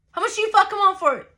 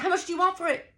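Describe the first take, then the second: First: High, fast, louder outburst; furious repeated demand. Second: High-pitched, insistent question; heated demand. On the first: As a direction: explode with the demand, hitting every word. Repeats demand, escalated, in quarrel. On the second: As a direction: demand a price mid-argument, pitch right up. Demanding price in acted quarrel. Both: Retold or imitated.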